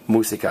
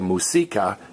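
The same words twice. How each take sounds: First: The stress is on the first syllable. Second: The stress is on the second syllable. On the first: The speaker calls it right. "stress me, musica" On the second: The speaker calls it wrong. "Don't say musica"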